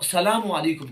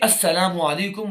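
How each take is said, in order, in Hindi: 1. अभिवादन 'sa' से शुरू होता है, 'as' से नहीं। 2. अभिवादन 'as' से शुरू होता है, जैसे 'assalamu' में। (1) "ये बिल्कुल गलत है" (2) "सही जो हदीस मुबारक के अंदर अल्फाज आए हैं"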